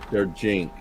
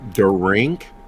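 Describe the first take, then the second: First: It is said as two syllables, der and jink. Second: It is said as one syllable, like drink. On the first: The speaker calls it right. "There, there you go" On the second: The speaker calls it wrong. "Did I have it right?"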